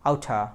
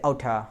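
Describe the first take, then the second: The two takes are said the same way.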